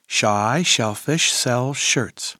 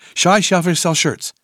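First: The phrase is said at a fast pace. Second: The phrase is said at a very fast pace. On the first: "plus vite" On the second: "Encore plus vite"

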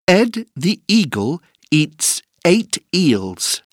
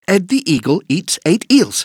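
First: It is said at a slow pace. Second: It is said at a fast pace.

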